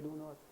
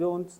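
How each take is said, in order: First: "do not" as two separate full words; full form do not. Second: "don't" as one quick contracted word; short form don't. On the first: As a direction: say "do not" slowly and fully, both words clear. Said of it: "बड़ा बड़ा बोल देंगे". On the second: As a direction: clip it to a single syllable "don't". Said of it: "short पे अपन के बोलते रहते हैं". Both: Shown as a demonstration.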